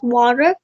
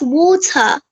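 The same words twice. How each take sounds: First: The final r is pronounced strongly. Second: The final r is dropped and silent. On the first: "in American English it's water" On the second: "In British it's water"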